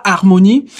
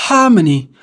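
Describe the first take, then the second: First: "harmonie" the French way, H silent; French pronunciation of "harmonie", no H. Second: "harmony" with an audible English H; English pronunciation of "harmony", H sounded; English breathed H. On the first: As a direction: start "harmonie" straight on the vowel. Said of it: "on ne prononce pas le H". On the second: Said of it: "mais en anglais, on dira". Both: Shown as a demonstration.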